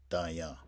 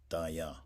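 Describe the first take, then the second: Both takes have the same delivery.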